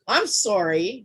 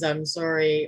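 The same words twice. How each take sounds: First: It is said in a dismissive, annoyed tone. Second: It is said in a sincere, apologetic tone. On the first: Go away, I don't care. "which means F off" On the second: A genuine apology. "means I'm sorry"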